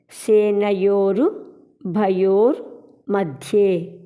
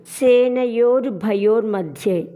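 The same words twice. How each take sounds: First: సేనయోరు, భయోర్, మధ్యే separated by clear pauses; word-by-word pronunciation. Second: Said in the usual way. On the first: Shown as a demonstration. Teacher showing a hard phrase, సేనయోరు భయోర్ మధ్యే in separate pieces. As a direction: break సేనయోరు భయోర్ మధ్యే into three careful parts. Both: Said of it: "అని పలకాలి".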